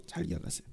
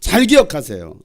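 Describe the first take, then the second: First: 잘 기억하세요 whispered with no voice. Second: Said in the usual way. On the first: Shown as a demonstration. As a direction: breathe 잘 기억하세요 softly as a secret. (잘 기억하세요 를 속삭이듯 조용히)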